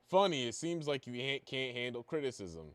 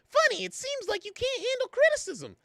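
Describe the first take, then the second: First: It is read in a plain, natural voice. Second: It is read in a put-on mocking voice. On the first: The speaker calls it wrong. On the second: The speaker calls it right.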